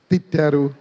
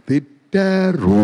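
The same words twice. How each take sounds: First: Said in the usual way. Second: తిట్టారు stretched very slowly; తిట్టారు said slow and long; drawn-out తిట్టారు. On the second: Shown as a demonstration. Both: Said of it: "అత్తగారు నన్ను తిట్టారు".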